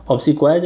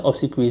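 First: "obsequies" with third syllable like "kwai"; "kwai" pronunciation. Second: "obsequies" with third syllable like "kwee"; "kwee" pronunciation. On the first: Teacher offering either reading to students, "kwai" version. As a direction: say "obsequies" as ob-si-kwaiz. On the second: Teacher offering either reading to students, "kwee" version. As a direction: say "obsequies" as ob-si-kweez. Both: Shown as a demonstration. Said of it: "जैसे भी पढ़ लो".

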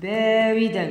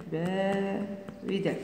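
First: Said in the usual way. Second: "باردا" slow and soft, split into syllables; slow dictation. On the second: Shown as a demonstration. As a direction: stretch "با", pause, then quietly finish "ردا".

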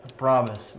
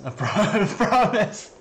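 First: Said in the usual way. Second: "I promise" broken by a laugh, higher. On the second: Real, not acted. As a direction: say "I promise" while cracking up.

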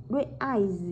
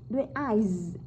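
Both takes have the same delivery.

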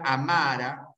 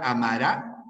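First: "amara" stressed on the middle MA; stress on the middle syllable. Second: "amará" stressed on the final RÁ; stress on the last syllable. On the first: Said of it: "acá no solamente cambia el tiempo". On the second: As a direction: push the end of "amará", a-ma-RÁ. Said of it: "amará, tiempo futuro". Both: Shown as a demonstration.

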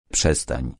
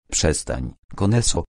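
First: Put-on lower, drawn-out old man's voice; old sorcerer repeating. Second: Put-on drawn-out old man's voice. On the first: Sorcerer Karapana repeats his warning to Koneso, drawn out. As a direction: repeat it slowly like a weary elder. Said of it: "powtórzył Karapana". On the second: Old sorcerer calmly silencing the chief, drawn out. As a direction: stretch the words like a tired old man. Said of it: "odezwał się przeciągły, starczy głos". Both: A narrator's reading.

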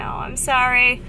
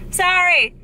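First: Said in the usual way. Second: "Sorry!" jumps high and loud, falling at the end. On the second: Real, not acted. Vlogger apologizing to Chrissy for forgetting her name, high and loud. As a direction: blurt "Sorry!" as a bright apology.

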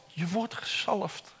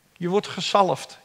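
First: Much softer, almost under the breath; soft echo. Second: Said in the usual way. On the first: Shown as a demonstration. Preacher repeating God's promise, hushed. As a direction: let the repeat sink in quietly. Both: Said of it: "repeated quieter".

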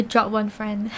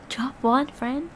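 First: Said in the usual way. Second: "Drop one friend?" slowed, "one" lifted as a question; amused questioning. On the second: Real, not acted. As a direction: query "one" softly, drawing out "Drop one friend?". Questions the message just read.

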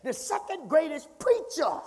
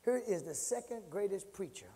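First: "second greatest preacher" pitched high and punched; raised, preacherly stress on "second greatest preacher"; emphatic. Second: Said in the usual way. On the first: Real, not acted. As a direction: hammer each word of "second greatest preacher". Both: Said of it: "I'm emphasizing it".

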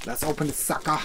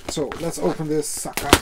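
First: A hint of a gruff tough-guy growl; lightly voiced Mr. T tough guy; half-hearted B. A. Baracus growl. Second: Said in the usual way. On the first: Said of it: "I'm so, sounding like B A Baracus". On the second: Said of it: "sounding like B A Baracus".

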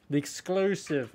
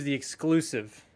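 First: A slow, lightly put-on fancy accent on "The exclusive"; slow mock fancy accent on "The exclusive". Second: Said in the usual way. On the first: Real, not acted. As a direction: drawl "The exclusive" slowly in a mock posh accent, just for fun. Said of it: "I don't know why I put an accent on when I said that". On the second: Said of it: "I don't know why I put an accent on".

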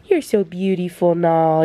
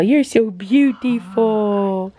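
First: Pet talk to dog. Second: Slowly gushing over the dog; slow drawn-out pet talk. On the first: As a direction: coo it to the dog lying beside you. Praising the dog on the floor. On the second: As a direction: stretch it out slowly, doting on the dog. Praising the dog again. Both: Real, not acted.

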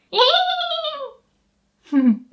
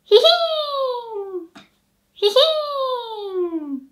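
First: Even higher, longer whinny; bigger horse whinny. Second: Very high whinny hihin; horse whinny. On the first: Teacher gives a better horse whinny. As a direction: neigh fully like a horse. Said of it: "I could do more like". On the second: Teacher imitates a horse neighing. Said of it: "the sound horses make". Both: Shown as a demonstration.

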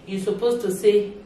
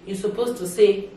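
Both takes have the same delivery.

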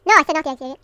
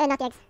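First: Loud, exasperated repeat; exasperated telling-off; annoyed scolding. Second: Said in the usual way. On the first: Real, not acted. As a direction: snap it out loudly, as if not heard. Scolds, repeating himself louder.

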